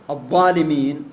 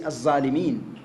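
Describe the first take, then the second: First: The consonant is made with the tongue between teeth. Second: The consonant is changed into a different letter. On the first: The speaker calls it right. "Like الظالمين" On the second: The speaker calls it wrong. "we do not see الظالمين"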